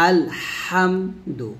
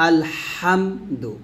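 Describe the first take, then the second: No difference in how they are said.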